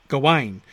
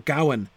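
First: The stress is on the second syllable. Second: The stress is on the first syllable. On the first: This is the form used for the French poems. "The stress is on the second syllable because it's the ain that matters" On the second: This is the form used for the English alliterative poem. "the stress is on the first syllable because it alliterates"

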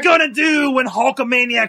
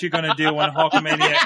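First: It is said in a put-on wrestler's voice. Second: It is read in the speaker's normal voice.

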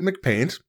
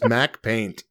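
First: The first syllable is a reduced 'Mc' sound. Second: The first syllable is a full 'Mac' sound. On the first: "I always pronounced it McPaint" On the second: "no, it's Mac Paint"

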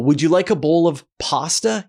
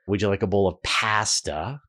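First: Pasta is said with an American accent vowel. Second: Pasta is said with a Canadian accent vowel. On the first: "So an American would say pasta" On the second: "And I would say"

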